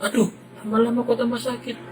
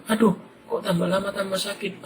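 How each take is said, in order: First: Put-on much higher, fast child's wail of pain; hurt child's wail, higher and faster; crying kid. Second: Put-on child's voice, higher, complaining of pain; plain voiced child in pain; whining kid. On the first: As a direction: let the hurt boy break into a wail. Boy stung, pain growing. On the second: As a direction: whimper it like a hurt little boy. Boy stung, head hurting.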